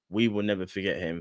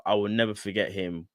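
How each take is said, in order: First: "We" lifted and leaned on; stress on we. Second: Said in the usual way. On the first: Shown as a demonstration. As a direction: put the weight on "We".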